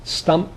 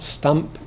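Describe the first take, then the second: Both takes have the same delivery.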